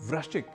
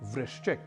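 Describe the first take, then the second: First: The r carries a different vowel, not 'i'. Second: The r carries an 'i' vowel, as 'vri'. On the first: The speaker calls it wrong. "कई लोगों से वृश्चिक इस रूप में सुन लेते हैं" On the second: The speaker calls it right. "जैसे एक शब्द है वृश्चिक"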